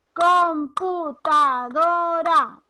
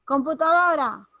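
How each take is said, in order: First: "computadora" loud, slow and higher, drawn out syllable by syllable. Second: Said in the usual way. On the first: Shown as a demonstration. Teacher showing students where the intensity falls, slow loud syllable-by-syllable "computadora". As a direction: stretch "computadora" out slowly so the stressed DO can be heard. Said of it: "¿dónde está la mayor intensidad?". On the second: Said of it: "si yo digo".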